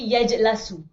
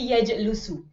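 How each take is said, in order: First: The vowel after the l is a. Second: The vowel after the l is u. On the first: "I know I never say yajlasu" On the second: "Nor will I say yajlusu"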